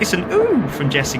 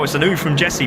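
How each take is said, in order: First: It is said in a put-on woman's voice. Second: It is said in his own ordinary voice.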